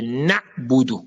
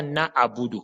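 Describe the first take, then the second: First: Na'budu with na' shut off, then budu; correct stopped ayn. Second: Na'budu said as "na-abudu", vowel running on; wrong open ayn. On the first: Teacher correcting learners, ayn cleanly stopped. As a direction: squeeze na' closed before budu. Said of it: "c'est na'budu". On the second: Teacher showing the mistake, ayn given a vowel. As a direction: slide from na into an extra a before budu. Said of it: "Ce n'est pas na'budu". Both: Shown as a demonstration.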